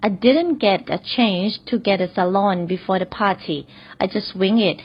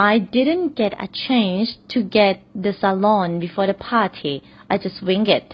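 First: Very slow, careful repeat; slow example repeat. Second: Very slow, careful read; slow example sentence. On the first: Teacher repeats the salon example slowly for learners. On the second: Teacher reads the salon example slowly to learners. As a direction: read it slowly so students follow. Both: Shown as a demonstration. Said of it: "ขออีกนิดนึง".

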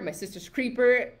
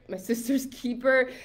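First: Says "Creeper" with a clear k-r cluster, KREE-per; misnaming the film as "Creeper", K-R-EE-per; slip of the tongue. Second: Says "Keeper" cleanly, KEE-per with no r; correcting the slip, plain "Keeper"; self-correction. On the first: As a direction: blurt "My Sister's Creeper" as a wrong title. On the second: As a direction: fix the title to "My Sister's Keeper" without the r. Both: Real, not acted.

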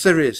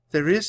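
First: "there is" said firmly, louder, falling at the end; firm affirmation. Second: "There is?" lifted into a rising question; questioning echo. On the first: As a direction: answer with "there is" as a confident statement. Jack counters hopelessness with assurance. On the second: Annie questions Jack's hopeful answer. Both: A narrator's reading.

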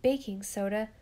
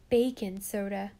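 First: Said in the usual way. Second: "bacon soda" said as spelled, with bacon for baking; misspelling read out. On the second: A narrator's reading. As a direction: stress the wrong word in "bacon soda". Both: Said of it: "every other word was spelled wrong".

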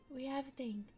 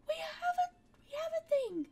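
First: Said in the usual way. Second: Higher and louder, thrilled discovery; excited find. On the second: Real, not acted. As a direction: blurt it out delighted at the find. Excited find, then repeated plainly.

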